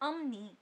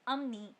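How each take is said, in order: The two takes are said the same way.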